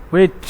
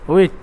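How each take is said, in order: No difference in how they are said.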